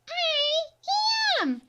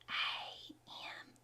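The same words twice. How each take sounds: First: The letters are said in a babyish voice. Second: The letters are whispered softly. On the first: "Let's try our baby voice" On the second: "let's use our whisper voice"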